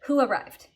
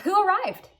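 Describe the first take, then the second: First: "arrived" falls like a statement; downward question intonation. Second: Much higher, with a perky upswing on "arrived"; perky English question lift. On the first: Teacher translating the Russian tune, falling pitch on "arrived". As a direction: ask it with "arrived" dropping. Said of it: "you actually should go down in your intonation". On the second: Teacher contrasting English questions, perky high lift on "arrived". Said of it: "nice little perky up on the end". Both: Shown as a demonstration.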